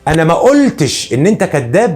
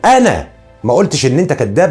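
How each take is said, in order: First: The verb carries the strongest stress. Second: The first word carries the strongest stress. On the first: It was implied but not said in words. "يبقى انا هنا عايز اقول بنفي القول" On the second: Someone else may have said it. "معناه ان انا بنفي عن نفسي ان انا قلت"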